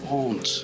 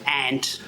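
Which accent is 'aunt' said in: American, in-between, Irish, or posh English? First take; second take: posh English; Irish. First: It is said in a posh English accent. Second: It is said in an Irish accent. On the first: "posh English people say aunt" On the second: "Irish people say aunt"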